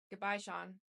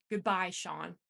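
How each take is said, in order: First: Said in the usual way. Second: Louder, final, decisive goodbye; firm conviction. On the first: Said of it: "I just plainly stated". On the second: A narrator's reading. Narrator ends the call, firm and much louder. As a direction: shut the door on him with the word. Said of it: "with much more conviction".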